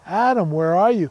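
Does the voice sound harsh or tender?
tender. It sounds tender and heartbroken, gentle and loving.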